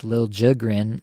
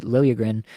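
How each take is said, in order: First: Liljegren said LIL-JIG-rin, with a hard j; new requested pronunciation. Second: Liljegren said LIL-ya-gren, with a y glide; old Toronto pronunciation. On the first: Podcaster giving the name the player now asks for, Liljegren as LIL-JIG-rin. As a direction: say Liljegren as "Lil Jigrin", j not y. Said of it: "and now it's Liljegren that he's asking". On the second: Podcaster recalling the Toronto name, Liljegren as LIL-ya-gren. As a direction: say Liljegren with y in place of j. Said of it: "they pronounced it Liljegren in Toronto for years". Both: Shown as a demonstration.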